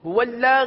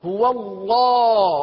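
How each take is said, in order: First: The L sound is thin and light. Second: The L sound is full and heavy. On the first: The speaker calls it wrong. "هو لا غلط ادائیگی" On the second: The speaker calls it right. "اللہ عز وجل کے لام کو پور پڑیں گے"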